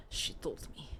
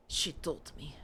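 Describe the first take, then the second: First: Eerie unvoiced whisper of the same line. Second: Said in the usual way. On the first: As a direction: whisper it like a secret from the witch. Creepy repeated line. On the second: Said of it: "repeated as whisper".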